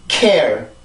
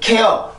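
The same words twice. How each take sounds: First: The word is stressed and drops sharply in pitch. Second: The word is said flat without a strong drop. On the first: The speaker calls it right. "강세를 타고 이렇게 뚝 떨어지는 소리가 돼요" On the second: The speaker calls it wrong. "그냥 care, care 이렇게 발음이 되지 않고"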